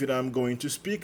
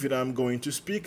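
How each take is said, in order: First: 'I am' is contracted; 'going to' stays full. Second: The same.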